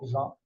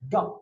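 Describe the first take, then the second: First: It begins with a soft zh sound. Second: It begins with a hard g sound. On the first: The speaker calls it wrong. "c'est pas ja" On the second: The speaker calls it right. "ça se dit ga"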